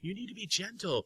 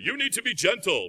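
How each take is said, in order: First: It is said softly and gently. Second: It is said harshly and loudly.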